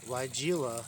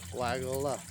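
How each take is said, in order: First: It does not sound like 'Weigel' plus 'a'. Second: It sounds like the name 'Weigel' plus 'a'. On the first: The speaker calls it wrong. "It's not Weigela" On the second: The speaker calls it right. "His name is Weigel. Add an A to the end"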